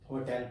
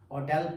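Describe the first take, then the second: First: The stress is on the first syllable. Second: The stress is on the second syllable. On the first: The speaker calls it wrong. "ना कि hotel पे डला, हो पे डल रहा है" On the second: The speaker calls it right. "टेल पे डल रहा है"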